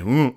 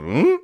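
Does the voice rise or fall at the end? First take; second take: fall; rise. First: The voice falls at the end like a statement. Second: The voice rises at the end like a question.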